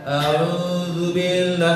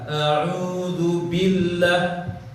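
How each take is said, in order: First: The b sound is pressed out weakly. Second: The b sound is pressed out strongly. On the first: The speaker calls it wrong. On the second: The speaker calls it right.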